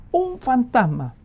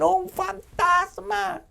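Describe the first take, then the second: First: High, loud, slow cry of fright; fearful shout. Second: Very high, slow, stretched-out cry of terror; frightened scream. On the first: Disciples in the boat shouting in fear. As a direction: shout it out in panic. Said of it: "gritaron de miedo". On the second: Disciples seeing a figure on the water scream in terror. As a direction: wail it like terrified sailors. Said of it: "ellos gritan". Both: Acted.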